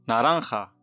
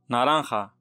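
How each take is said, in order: No difference in how they are said.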